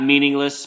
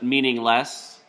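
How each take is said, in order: First: The stress is on the first syllable. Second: The stress is on the last syllable. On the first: "So not meaningless" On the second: "The way he puts the emphasis on less"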